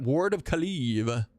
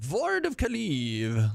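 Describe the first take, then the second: First: Said in the usual way. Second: High, drawn-out mock-grand spell name; theatrical announcement. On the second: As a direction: proclaim the spell slowly with a playful flourish.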